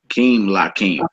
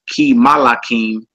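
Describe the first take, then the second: First: The m closes the first syllable with no vowel. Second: A vowel follows the m before the l. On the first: The speaker calls it right. "There you go" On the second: The speaker calls it wrong. "you wouldn't say"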